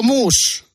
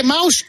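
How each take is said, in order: First: MOUSSE said as "moos". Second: MOUSE with an "au" diphthong; English "maus". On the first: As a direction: say mousse with an "oo" vowel. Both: Shown as a demonstration. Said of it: "¿Se dice mouse o mousse?".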